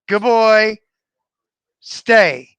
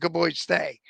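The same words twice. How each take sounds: First: The phrase is split into separate parts. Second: The phrase runs together as one word. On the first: The speaker calls it wrong. "don't say, ... No, you blew it" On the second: The speaker calls it right. "It has to sound like one word"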